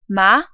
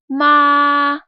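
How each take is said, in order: First: The pitch rises from middle to high. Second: The pitch stays high and level throughout. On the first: "the second tone is a rising tone" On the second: "a high, even, and constant tone"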